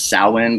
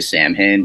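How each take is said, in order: First: The name gets its Celtic, Irish pronunciation. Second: The name gets an anglicized, spelled-out pronunciation. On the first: This is the original, traditional pronunciation. "the Celtic pronunciate pronunciation is Samhain" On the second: This is how the band's fans say it. "I'm going to say Samhain because that's what these barbarians from New York say"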